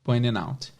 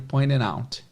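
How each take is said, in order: No difference in how they are said.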